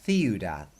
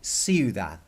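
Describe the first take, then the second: First: The first sound is a th sound. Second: The first sound is an s sound. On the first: This is how it is said in Spain. "But if you were in Spain, it would be ... because they th the C" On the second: This is how it is said in Mexico. "in Mexico they would say"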